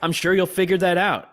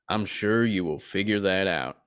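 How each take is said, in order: First: The voice is high-pitched, with no accent. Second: The voice is lower, with an accent. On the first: This is how the character sounds in the show. The speaker calls it wrong. "Voice is way higher" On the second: This is how the character sounds in the game. The speaker calls it right. "in the game he goes"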